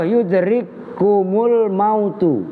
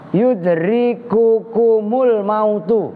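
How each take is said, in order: First: No vowel comes between the k sounds. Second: A 'u' vowel separates the two k sounds. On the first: This is the well-known reading. "Kalau qiraah masyhurah" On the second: This is the less common reading. "Birof'il kafaini dengan dibaca rofa dua kaf"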